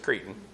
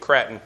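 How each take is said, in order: First: The word is said with its standard pronunciation. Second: The word is said with its alternate pronunciation. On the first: "but it's Cretan" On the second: "alternate pronunciation"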